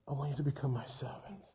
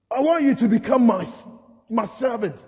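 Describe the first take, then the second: First: Very soft, low and quick; hushed divine insistence. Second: Commanding Lord. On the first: The Lord repeats his call to a doubter, hushed. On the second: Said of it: "and the Lord goes". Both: Acted.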